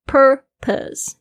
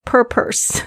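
First: "Purpose" with curled "per" and light, unstressed "pus"; relaxed second syllable. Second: "purpose" mispronounced as "pur-purse"; both syllables r-coloured. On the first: Teacher correcting the mistake for listeners, "Purpose" with a relaxed ending. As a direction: say "Purpose" higher, relaxing the second half into a schwa. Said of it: "要比较放松一点". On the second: Teacher showing her own old mistake, "purpose" with two curled r sounds. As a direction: curl the tongue on both halves of "purpose". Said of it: "不要两个都卷舌，因为以前我常常这样发". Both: Shown as a demonstration.

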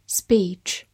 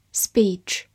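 No difference in how they are said.

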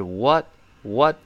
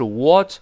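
First: "what" with the wider American vowel, slow. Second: "what" with the un-American, less open vowel, said forcefully; wrong vowel. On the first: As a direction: say "what，what" slowly, mouth more open. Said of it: "而是what，what". (美式what，口型略大，慢读) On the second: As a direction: show the wrong "what", mouth not open enough. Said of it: "不是what". (错误示范：what口型不够大) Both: Shown as a demonstration.

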